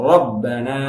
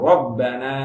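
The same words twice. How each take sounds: No difference in how they are said.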